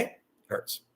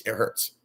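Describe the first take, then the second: First: Whispered, breathy and soft; whispered hurt. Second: Said in the usual way. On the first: Real, not acted. Telling viewers how it feels, pained whisper. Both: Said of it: "imagine yourself in my shoes".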